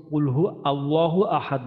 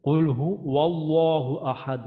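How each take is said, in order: First: কুল হু আল্লাহু read with a break before আল্লাহু; wrong linking. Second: কুল হু ওয়াল্লাহু slowly joined with a w glide; correct linking. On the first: Teacher showing the wrong joining of হু and আল্লাহু. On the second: Teacher modelling the joined ওয়াল্লাহু recitation. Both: Shown as a demonstration. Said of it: "এটা কিন্তু ... না".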